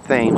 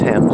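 First: The river name is said the local American way. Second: The river name is said the British way. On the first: This is how locals name the river. The speaker calls it right. "We say Thames" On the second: This is how the British name their river. The speaker calls it wrong. "not Thames, as the Brits say"

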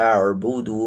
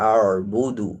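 No difference in how they are said.

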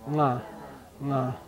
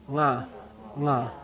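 Both takes have the same delivery.

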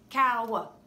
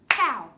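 First: The word is stretched into two syllables. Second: The word is said as one syllable. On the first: The speaker calls it wrong. "So we don't say it like this" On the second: The speaker calls it right. "It's just cow"

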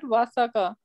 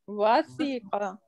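First: The middle vowel is an 'a' sound. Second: The middle vowel is an 'i' sound. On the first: The speaker calls it wrong. "It's not wasaqa" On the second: The speaker calls it right. "Wasiqa yasiqu"

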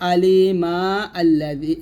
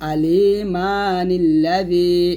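First: The words are separated, with no n-sound linking them. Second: An n-sound joins the first word to the next. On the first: The reciter pauses after the first word. "আমরা থামলে আলিমা আল্লাদি" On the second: The reciter continues without pausing. "আর না থামলে বলবো আলিমা নিল্লাদি"

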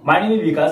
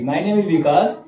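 First: The sentence is spoken very fast. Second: The sentence is spoken slowly. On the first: The speaker calls it wrong. "इतनी speed में बोल रहे कि सामने वाला समझ ही नहीं पाया" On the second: The speaker calls it right. "धीमे धीमे बोलना है"

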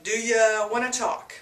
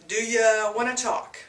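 First: The word 'you' is reduced to 'ya'. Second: The word 'you' is reduced to 'ya'.

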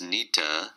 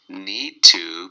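First: The words blend into one reduced word, nita. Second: Both words are said fully and separately. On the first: "need to becomes nita" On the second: "need to becomes nita"

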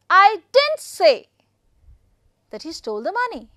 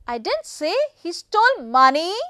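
First: The stress falls on "didn't". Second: The stress falls on "money". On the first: The speaker denies having said it. "didn't is the most important stressed one" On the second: What was stolen was something other than money. "I am putting stress on money"

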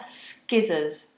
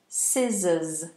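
First: The word begins with an sk sound. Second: The word begins with a plain s sound. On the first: The speaker calls it wrong. "Not skizzers. Some people say skizzers" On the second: The speaker calls it right. "And the pronunciation? Scissors"

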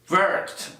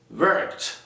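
First: The ending is said as a t sound. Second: The ending is said as a t sound.

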